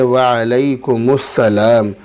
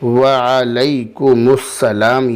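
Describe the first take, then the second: First: The m runs straight into the s. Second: The m runs straight into the s.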